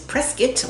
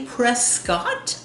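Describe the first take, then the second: First: The ending sounds like 'biscuit'. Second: The ending does not sound like 'biscuit'. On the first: This is the way long-time locals insist on. "which is Prescott, like biscuit" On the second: This is the speaker's own preferred way. "I like to say Prescott"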